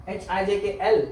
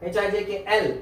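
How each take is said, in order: Both takes have the same delivery.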